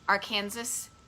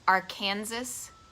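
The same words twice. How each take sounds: The two takes are said the same way.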